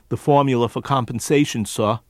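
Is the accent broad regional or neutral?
neutral. A neutral accent without added R sounds. "instead of what he might normally do"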